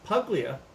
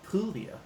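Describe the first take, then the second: First: The g is sounded as a hard g. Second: The g is silent, like 'pool-ya'. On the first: The speaker calls it wrong. "Some of you may pronounce it" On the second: The speaker calls it right. "but it's"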